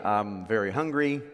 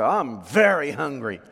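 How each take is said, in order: First: It is said plainly, without extra emphasis. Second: It is said with strong emphasis on 'very'.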